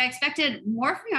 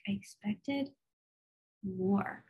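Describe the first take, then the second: First: Mock complaint. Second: A quiet let-down aside to the Lord. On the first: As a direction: say "I expected more from you" as a playful reproach. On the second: Retold or imitated. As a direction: say "I expected more" softly, deflated. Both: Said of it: "I was like".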